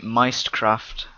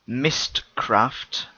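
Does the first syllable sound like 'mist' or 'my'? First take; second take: my; mist. First: The first syllable sounds like 'my'. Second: The first syllable sounds like 'mist'. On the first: "I pronounce it Meistcraft because they put a Y instead of an I" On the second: "He said, "You mine Mistcraft"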